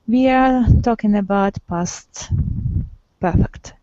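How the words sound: The voice falls at the end. It is a statement. "This is the falling intonation"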